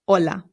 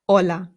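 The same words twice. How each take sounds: First: The word begins directly with the O vowel. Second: The same.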